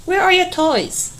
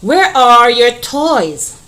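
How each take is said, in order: First: Much higher, questioning voice; high, curious question; asking tone. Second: Slow, loud read-aloud of the question; slow teacher reading. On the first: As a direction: ask it like a real question. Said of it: "A question". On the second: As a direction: read it out slowly to the class. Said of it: "All right". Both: Shown as a demonstration.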